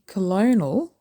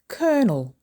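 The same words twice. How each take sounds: First: The word is said with more than two syllables. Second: The word is said with two syllables. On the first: The speaker calls it wrong. "Don't say colonel" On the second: The speaker calls it right. "Colonel is two syllables"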